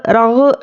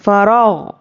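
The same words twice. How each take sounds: First: रग with a bounced echo on the ग; wrong way. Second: फ़रग with a smooth ग, no echo, falling tune; right way. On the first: Teacher shows students the mistake to avoid, rough echoed ending. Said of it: "ऐसा नहीं करना है". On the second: Teacher shows students the correct ending, smooth falling close. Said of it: "गैन पर बिल्कुल भी खलखला नहीं करना है". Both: Shown as a demonstration.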